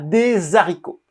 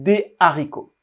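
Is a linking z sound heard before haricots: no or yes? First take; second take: yes; no. First: A linking z sound joins the two words. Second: No linking sound joins the two words. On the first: The speaker calls it wrong. "On ne dit pas des haricots" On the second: The speaker calls it right. "mais c'est des haricots"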